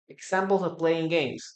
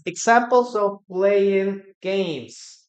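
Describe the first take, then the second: First: Said in the usual way. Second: "Examples of playing games" said slowly and louder, leaning on "examples"; slow emphatic repeat. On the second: Shown as a demonstration. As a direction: spell out "examples of playing games" clearly for the class. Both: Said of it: "Examples, guys".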